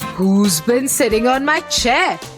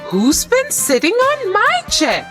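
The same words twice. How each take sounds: First: It is howled loudly in Daddy Bear's voice. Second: It is said wonderingly in Mama Bear's voice.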